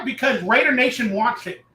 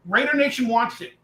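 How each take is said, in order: First: Raider hit hardest, rest of the line level; stress on Raider. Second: Nation leaned on, Raider eased off; stress on Nation. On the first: To the chat, Raider Nation wants it, Raider stressed. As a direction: lean into the word Raider. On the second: Repeating the point to fans, Nation stressed. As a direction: shift the weight onto Nation. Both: Shown as a demonstration.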